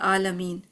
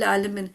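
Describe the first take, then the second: First: The word begins with a plain open vowel. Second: The word begins with a tight throat sound. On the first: It means the Lord of grief and sorrow. The speaker calls it wrong. "गलत जब पढ़ेंगे आलमीन, अलिफ पढ़ेंगे" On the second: It means the Lord of the worlds. The speaker calls it right. "इसको हमने आइन करना है"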